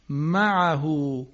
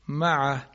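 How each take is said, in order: First: The final h is followed by a long vowel. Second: The final h is bare with no vowel. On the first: The word continues without a stop. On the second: The reciter stops on the word.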